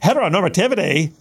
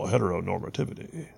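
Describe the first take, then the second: First: It is said in a haughty, entitled tone. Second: It is said in a plain, neutral tone. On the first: The speaker calls it right. "You have to say, ... That's how it comes out" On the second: The speaker calls it wrong. "You can't say, well"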